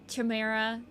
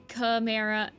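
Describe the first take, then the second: The two takes are said the same way.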